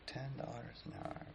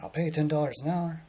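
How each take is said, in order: First: Very soft, higher-pitched echo; quiet disbelief. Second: Higher-pitched imitation of a pitch; retold eager offer. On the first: Retold or imitated. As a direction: repeat the offer under your breath, doubting it. He echoes the offer, unimpressed. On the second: Old man offering pay to hold a sign, higher-pitched offer. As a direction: make the offer in a raised voice.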